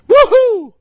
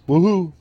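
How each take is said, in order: First: It is said loudly with lots of excitement. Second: It is said flatly, without energy.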